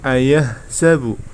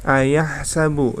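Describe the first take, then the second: First: The h is a plain, light breath sound. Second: The h is a tense, throaty sound. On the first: The speaker calls it wrong. "Jadi tidak boleh ayah sabu" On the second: The speaker calls it right. "di situ menggunakan huruf ha ya"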